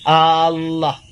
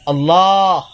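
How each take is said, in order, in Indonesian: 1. Vokal pertama dipanjangkan. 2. Vokal akhir sebelum h dipanjangkan. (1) "tambahkan lafal hamzah pada lafal Allah, maka bacaannya jadi Allah. Itu bacaan Allah salah" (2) "yang benar Allah, Allah di lafal jalalah yang panjang, bukan di a-nya"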